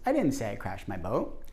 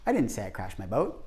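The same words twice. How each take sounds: First: The stress is on the word say. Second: The stress is on the word didn't.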